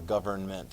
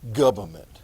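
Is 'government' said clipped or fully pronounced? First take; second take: fully pronounced; clipped. First: The word is said carefully with every sound. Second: The word is said in a clipped, casual way. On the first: The speaker calls it right. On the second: The speaker calls it wrong.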